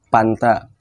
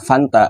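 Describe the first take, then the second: First: The word begins with a P sound. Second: The word begins with an F sound.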